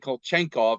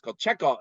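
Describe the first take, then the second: First: An n sound is added before the k. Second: No n sound is added before the k. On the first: The speaker calls it wrong. "don't say Kolchenkov" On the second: The speaker calls it right. "it's Kolchekov"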